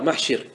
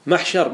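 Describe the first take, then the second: First: محشر said "mahshir", with an i; kasra form. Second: محشر said "mahshar", with an a; fatha form. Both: Shown as a demonstration. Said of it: "ما ورد بالوجهين".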